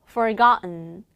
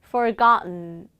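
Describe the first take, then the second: No difference in how they are said.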